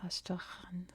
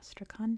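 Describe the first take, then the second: First: It is said with a Russian pronunciation. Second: It is said with an American English pronunciation. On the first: "It's pronounced Astrakhan if you're ever there, if you're Russian" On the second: "That's the American English pronunciation. I am American, I speak English, so I pronounce it"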